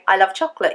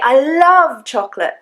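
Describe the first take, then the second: First: No word carries special stress. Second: The second word carries the stress. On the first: It is a plain statement. "You don't have to really stress any of the words" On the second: The feeling is strong, not mere liking. "I don't mean that I just like it"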